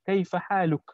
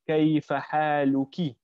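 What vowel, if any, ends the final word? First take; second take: none; i. First: The last word ends on the k sound, no vowel. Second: The last word ends in a short i vowel. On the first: The gender of the person addressed is not specified. "we don't actually say it. We don't specify. We just say" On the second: The person addressed is female. "if you're speaking to a female, you're supposed to say"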